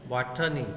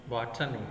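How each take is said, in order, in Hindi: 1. इसका उच्चारण भारतीय अंग्रेज़ी लहजे में किया गया है। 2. इसका उच्चारण भारतीय अंग्रेज़ी लहजे में किया गया है।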